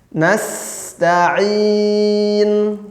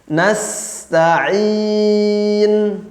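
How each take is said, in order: Both takes have the same delivery.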